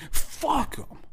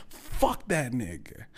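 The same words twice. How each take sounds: First: Pitched far up, mocking; high squeaky curse. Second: Said in the usual way. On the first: Real, not acted. Repeated curse, contrasting takes.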